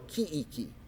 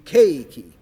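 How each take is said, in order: First: The first syllable has a plain long vowel. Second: The first syllable has a gliding diphthong. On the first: The speaker calls it wrong. "if you do it incorrectly, your program will do keiki or kiiki" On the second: The speaker calls it right. "so we want it to be keiki"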